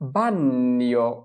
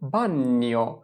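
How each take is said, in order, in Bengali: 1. gn উচ্চারিত হয় পূর্ণ দ্বিত্ব n হিসেবে। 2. gn-এর প্রথম n হালকা। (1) "যদি আমরা দুইটা ন উচ্চারণ করি" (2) "এই দুইটার মাঝখানে হবে বান্নিও"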